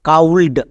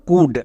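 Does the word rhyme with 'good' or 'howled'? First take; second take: howled; good. First: The vowel is 'ow' and the L is sounded. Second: The vowel is short 'oo' and the L is silent. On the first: The speaker calls it wrong. "কিন্তু এরকম উচ্চারণ করা হয় না।" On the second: The speaker calls it right. "তাহলে এর উচ্চারণ কি দাঁড়ালো?"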